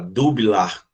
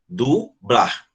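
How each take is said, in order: First: The b and l are split apart. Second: The b and l are said together. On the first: The speaker calls it wrong. "você não fala separadamente a palavra, a palavra dublar. Você não fala dublar" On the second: The speaker calls it right. "você fala dublar"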